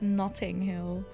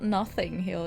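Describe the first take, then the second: First: The first word has a 't' sound in the middle. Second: The first word has a 'th' sound in the middle. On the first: The speaker calls it right. "it's Notting Hill" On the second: The speaker calls it wrong. "It is not Nothing Hill"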